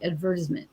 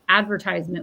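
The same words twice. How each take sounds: First: It is said in a posh way. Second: It is said in the everyday way.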